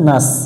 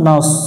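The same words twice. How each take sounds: First: The 's' sound is thin and light. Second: The 's' sound is thick and heavy. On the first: The speaker calls it wrong. "এটা সিনের মতো উচ্চারণ করে" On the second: The speaker calls it right. "নাস একটু মোটা হবে"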